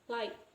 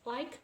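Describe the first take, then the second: First: The word ends without a k sound. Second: The word ends with a clear k sound. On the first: "she pronounced it as like, like, without the key" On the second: "we can pronounce as like"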